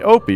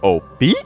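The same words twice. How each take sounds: First: The voice falls or stays flat at the end. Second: The voice rises at the end.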